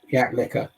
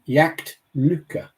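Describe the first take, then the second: First: There is no T sound in the middle. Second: A clear T sound is heard in the middle. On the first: The speaker calls it wrong. "the furthest away from the way I hear it" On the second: The speaker calls it right. "It's a massive improvement"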